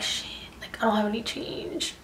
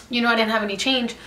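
First: Whispering under the breath, unvoiced; retold whisper. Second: Said in the usual way. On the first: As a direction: hush it like a panicked aside to yourself. Broke, panicking at the cash.

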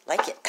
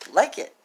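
First: Said in the usual way. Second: LIKE said higher and louder; playful higher, louder urge to like it; emphatic repeat. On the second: Shown as a demonstration. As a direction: push the word like, urging. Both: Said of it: "like it (repeated louder)".

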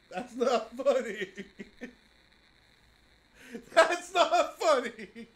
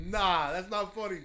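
First: Slow, laughing through the words; can't stop laughing while protesting. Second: Said in the usual way. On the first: Real, not acted. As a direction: giggly protest. Laughing after a scare.

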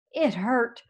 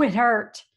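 First: Said in the usual way. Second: "it hurt" louder, pushed out in pain. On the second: A narrator's reading. Dog recalling the quills, "it hurt" louder with pain. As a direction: lean into "hurt" like it still stings. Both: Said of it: "Ooh, it hurt".

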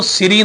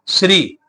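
First: ਸ੍ਰੀ said as siri with a full vowel between s and r; wrong full vowel. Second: ਸ੍ਰੀ said as one syllable, sri, with the r joined to s; half r cluster. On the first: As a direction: pronounce ਸ੍ਰੀ wrongly as two syllables, si-ri. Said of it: "ਸ੍ਰੀ ਨਹੀਂ ਕਹਿਣਾ". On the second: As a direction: pronounce ਸ੍ਰੀ with a half r, no vowel after s. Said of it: "ਬਿਹਾਰੀ ਰਾਰੇ ਦੇ ਉੱਪਰ ਉਚਾਰਨ ਹੋਏਗੀ". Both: Shown as a demonstration.

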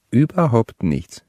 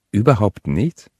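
First: "Überhaupt nichts" slowed, higher start, falling to a close; confirming repeat. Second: "Überhaupt nichts" rising at the end as a question. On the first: Deb confirming to Dexter, slow falling "Überhaupt nichts". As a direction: repeat "Überhaupt nichts" slowly as a final answer. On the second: Dexter checking with Deb, questioning rise on "Überhaupt nichts". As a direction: ask "Überhaupt nichts?" with the voice lifting on "nichts". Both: A narrator's reading. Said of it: "wiederholte Deb".

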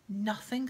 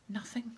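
First: Loud, scornful echo; spat. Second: Said in the usual way. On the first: A narrator's reading. Caretaker disbelieving the boy, spitting it out. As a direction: throw the word back in disbelief. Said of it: "spat Filch". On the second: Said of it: "said Harry truthfully".

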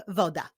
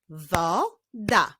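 First: Said in the usual way. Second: "Woda" as wo, pause, da; "Woda" syllable by syllable; split into syllables. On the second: Shown as a demonstration. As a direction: clap out "Woda" in two beats. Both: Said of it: "Wyklaszczmy sylaby w tych wyrazach".

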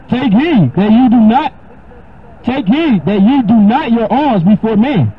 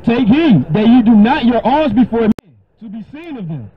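First: Higher, slow solemn reading of the verse; scripture reading. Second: Higher, solemn reread of the verse, a new take; scripture reading again. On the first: Preacher reading Matthew to his listener, solemn and slow. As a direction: lift the voice and read the verse with weight. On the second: Preacher rereads the verse to the questioner, solemn. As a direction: reread the line with fresh weight. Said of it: "read it again". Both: Acted.

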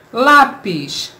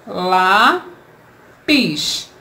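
First: Said in the usual way. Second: "Lápis" split as lá... pis; slow two-piece "Lápis" for pupils; syllable by syllable. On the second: Shown as a demonstration. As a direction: hold the first syllable of "Lápis", pause, then the second. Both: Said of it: "Vamos separar em sílabas".

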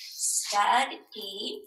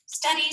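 First: "Study" stretched into two beats, stud, ee; split into syllables. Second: Said in the usual way. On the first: Shown as a demonstration. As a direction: sound out "Study" with a gap between syllables. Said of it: "how do we split up those syllables". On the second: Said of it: "Here's the word studied".

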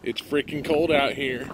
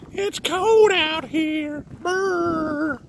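First: Said in the usual way. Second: High, slow shivering voice; shivering cold. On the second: Real, not acted. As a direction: stretch it out, teeth chattering.

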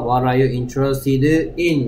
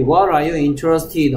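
First: Slow model sentence with "in" set apart at the end; teacher stressing the final "in". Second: Said in the usual way. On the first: Shown as a demonstration. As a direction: land clearly on a separate, drawn-out "in". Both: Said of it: "in 꼭 써야 된다는 점과".

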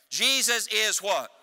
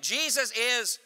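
First: Said in the usual way. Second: Rousing preacher's call to the congregation; say it like you mean it. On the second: Shown as a demonstration. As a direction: demand the answer from the church with force. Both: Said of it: "Say it like you mean it".

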